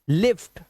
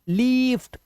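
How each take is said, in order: First: The vowel is short and quick. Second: The vowel is drawn out long. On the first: The speaker calls it right. "जल्दी बोलना है" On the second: The speaker calls it wrong. "ये गलत हो जाएगा"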